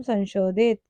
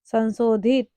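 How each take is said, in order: First: संशोधित with a sh sound; correct pronunciation. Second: संशोधित with s for श; wrong pronunciation. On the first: Teacher naming the letter, संशोधित with sh. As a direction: say संशोधित as san-shodhit. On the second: Teacher reading out the error, संशोधित with s. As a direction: say संशोधित as san-sodhit. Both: Shown as a demonstration. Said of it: "स से सलजम संशोधित".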